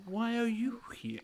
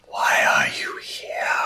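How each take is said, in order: First: Mock ghostly whisper. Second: Slow eerie spirit whisper; ghostly whisper. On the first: Echoes the spirits' question. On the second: Acted. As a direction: breathe it like a restless ghost. Spirit's question.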